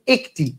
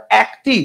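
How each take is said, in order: First: একটি said "ek-ti", with closed e; closed e vowel. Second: একটি said "æk-ti"; wrong open vowel. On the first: Teacher gives students the spoken form, একটি as "ek-ti". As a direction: narrow the first vowel of একটি to e. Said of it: "আপনি বলেন একটি". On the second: Teacher rejects this form for students, একটি as "æk-ti". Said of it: "আর একটি বলেন না". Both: Shown as a demonstration.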